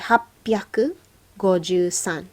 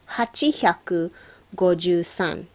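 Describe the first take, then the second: First: It is said as happyaku, with a doubled p sound. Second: It is said as hachi-hyaku, without a doubled consonant. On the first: The speaker calls it right. "We say はっぴゃくごじゅうさん" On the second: The speaker calls it wrong. "nobody uh, who's a native speaker says はちひゃく"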